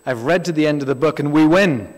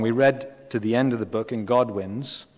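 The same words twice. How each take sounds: First: Louder, proclaiming it like a preacher from the pulpit; mock-preach the line with triumphant punch; imitating a loud preacher. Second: Said in the usual way. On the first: Quoting an American preacher to the congregation, loud triumphant proclaim. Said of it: "I heard an American preacher years ago say". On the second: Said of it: "He got it slightly wrong".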